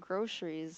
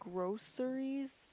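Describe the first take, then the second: First: It is said in the Michigan pronunciation. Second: It is said in a non-Michigan pronunciation. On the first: This is the speaker's own pronunciation. "I've always said groceries" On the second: This is how people outside Michigan say it. "us Michiganders don't say groceries"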